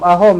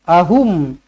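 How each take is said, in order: First: The last vowel is an open 'o' sound. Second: The last vowel is a close 'u' sound. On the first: The speaker calls it wrong. "jangan ahom ahom eh" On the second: The speaker calls it right.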